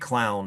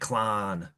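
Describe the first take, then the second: First: It is said in a general American accent. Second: It is said in a Pittsburgh accent. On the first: "people don't say clown" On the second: "they say clown"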